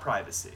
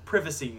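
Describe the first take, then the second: First: Privacy is said with an American pronunciation. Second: Privacy is said with a British pronunciation. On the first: The speaker calls it wrong. "not privacy" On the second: The speaker calls it right. "I said privacy"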